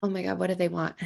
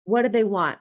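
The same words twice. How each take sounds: First: Subdued, tight acted dread; frozen. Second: Mildly tense, voiced worry; acted alarm. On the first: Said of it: "or you freeze and you're". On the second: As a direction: wonder anxiously what the boss is after. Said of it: "and you're like".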